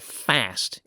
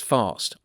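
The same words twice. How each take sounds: First: The word is said in an American accent. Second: The word is said in a non-American accent.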